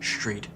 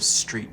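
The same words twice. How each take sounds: First: The word begins with an sh-like sound. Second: The word begins with a plain s sound. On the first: "where the S retracts and sort of becomes like an S H sound" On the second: "instead of"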